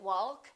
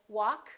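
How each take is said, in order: First: The L before the K is pronounced. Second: The L before the K is not pronounced. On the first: The speaker calls it wrong. "We don't say" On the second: The speaker calls it right. "silent L"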